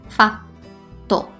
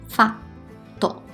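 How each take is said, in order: The two takes are said the same way.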